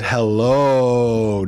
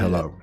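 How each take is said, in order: First: The final vowel is drawn out very long. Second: The word is said short and plain. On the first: The speaker calls it right. "there's like seven O's" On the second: The speaker calls it wrong.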